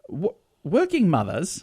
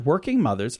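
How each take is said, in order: First: It is said in a put-on British accent. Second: It is said in the speaker's normal American accent.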